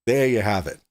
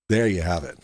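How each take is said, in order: First: Said in the usual way. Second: Low voice. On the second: Acted. Repeated catchphrase, lower voice.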